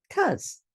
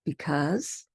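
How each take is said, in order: First: Because cut to a single high, bouncy cause; reduced cause. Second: Because with both syllables clear; full because. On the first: Teacher shows the short form, cause. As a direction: clip it to cause. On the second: Teacher gives the full form. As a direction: say because fully. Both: Shown as a demonstration. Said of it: "Here are a few more".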